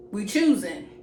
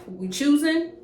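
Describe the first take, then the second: First: "We choosing." flat and falling; "We choosing." settled, falling, final; "We choosing." a falling verdict after the question; said as statement. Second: "We choosing?" with a high rising question; "We choosing?" pushed up high at the end like a challenge; "We choosing?" taunting question, voice rising sharply; asked as question. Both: Retold or imitated.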